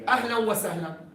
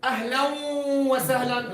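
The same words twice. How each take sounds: First: The nasal sound is kept short and natural. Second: The nasal sound is held very long. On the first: The speaker calls it right. "They make idgham" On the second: The speaker calls it wrong. "longest gunna"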